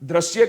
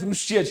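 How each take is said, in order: First: The word begins with the sound 'dra'. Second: The word begins with the sound 'dri'. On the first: The speaker calls it wrong. "ઉચ્ચાર પણ દ્રશ્ય કરીએ છીએ ને" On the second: The speaker calls it right. "સાચો ઉચ્ચાર દૃશ્ય છે"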